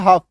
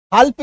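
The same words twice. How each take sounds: First: हाफ with no L before the F; silent L. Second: हाल्फ with the L pronounced before F; wrong L-sounded half. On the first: Teacher showing students the correct reading, L left silent. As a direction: say हाफ, long vowel straight into F. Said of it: "यहाँ पे एल का उच्चारण नहीं करना है". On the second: Teacher showing students the reading to avoid, L pronounced. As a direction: say हाल्फ, letting the L be heard. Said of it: "हाल्फ नहीं पढ़ना है". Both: Shown as a demonstration.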